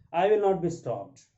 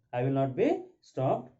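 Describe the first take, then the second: First: Raised, loud refusal; defiant. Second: Said in the usual way. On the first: Acted. Daughter refuses to be hushed, defiant. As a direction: push it out firmly, higher and louder. Mrs Jordan refuses to be silenced.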